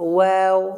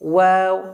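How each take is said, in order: No difference in how they are said.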